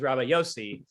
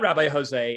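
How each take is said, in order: First: The name begins with a Y sound. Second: The name begins with an H sound. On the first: It is the rabbi's actual Hebrew name. The speaker calls it right. "it is Rabbi Yossi" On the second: It is read as the Spanish name. The speaker calls it wrong. "It is not Rabbi Jose"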